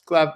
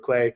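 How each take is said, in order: First: The name is pronounced the plain English way. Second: The name is pronounced the French way.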